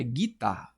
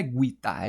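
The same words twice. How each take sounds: First: Guitarra with a silent u, hard g straight into i, gee-tarra; guitarra the right way, no u sound; correct pronunciation. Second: Guitarra with the u sounded, gu-i-tarra; mock wrong guitarra, the U pronounced; wrong pronunciation. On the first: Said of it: "Não é guitarra, é guitarra". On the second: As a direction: say guitarra giving the u its own vowel, gwee-tarra. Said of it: "ninguém nem fala o guitarra". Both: Shown as a demonstration.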